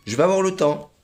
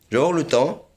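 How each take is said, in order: Both takes have the same delivery.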